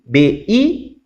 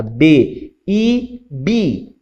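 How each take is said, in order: First: B then I, left hanging; cue to answer. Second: Teacher's chanted pattern closing on bi; resolved syllable drill. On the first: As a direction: raise I and wait for the pupil. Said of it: "o aluno tem que conseguir falar". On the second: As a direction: spell B, lift I, settle on bi. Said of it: "Então, fez lá". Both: Shown as a demonstration.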